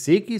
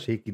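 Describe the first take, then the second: First: The name begins with a plain 'see' sound. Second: The name begins with a 'shay' sound. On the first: The speaker calls it right. "Es ist See und es ist Ki" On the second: The speaker calls it wrong. "Er hat mal Shaky gesagt"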